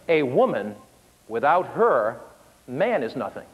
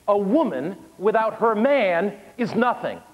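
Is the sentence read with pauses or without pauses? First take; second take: with pauses; without pauses. First: It is read with a couple of pauses. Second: It is read straight through without pauses.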